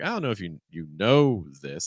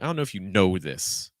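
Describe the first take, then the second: First: It sounds gentle, with a slight rise at the end. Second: It sounds firm, with heavy stress on know. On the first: It sounds softer and less confrontational. "if you want it to be a little like gentler" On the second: It adds attitude, as if the speaker is angry. "I do think it's very firm"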